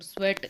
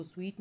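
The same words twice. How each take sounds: First: स्वेट with a short e vowel; correct pronunciation. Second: स्वीट with a long ee vowel; wrong pronunciation. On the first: Teacher showing how the word for perspiration sounds, स्वेट with short e. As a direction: say स्वेट with an e as in wet. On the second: Teacher warning students how not to say sweat, स्वीट with long ee. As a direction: say स्वीट with a long ee, like the sweet you eat. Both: Shown as a demonstration. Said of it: "इसको स्वीट नहीं बोलेंगे".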